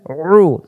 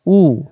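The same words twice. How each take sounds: First: "রু" as pharyngeal oo, no r; squeezed ain u. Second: Clean open "উ"; "উ" without throat pressure; hamza u. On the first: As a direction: press inside the throat for "রু". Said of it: "গলার ভিতরে চাপাচাপি হবে". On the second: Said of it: "আবার এবার বানান ছাড়া". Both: Shown as a demonstration.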